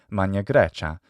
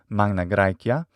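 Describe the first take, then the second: First: It uses ecclesiastical Italian Latin pronunciation. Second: It uses restored classical Latin pronunciation. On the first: "in the ecclesiastical or traditional Italian pronunciation of Latin" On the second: "in the restored classical pronunciation of Latin"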